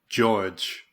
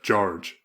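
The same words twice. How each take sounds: First: The R sound is left out. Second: The R sound is clearly pronounced. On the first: The speaker calls it wrong. "he's going like George ... totally missing the R being in the word" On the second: The speaker calls it right. "instead of George"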